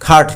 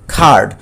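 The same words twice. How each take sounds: First: The vowel is short. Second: The vowel is long. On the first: The speaker calls it wrong. "খার্ড কিন্তু বলিনি" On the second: The speaker calls it right. "Long sound"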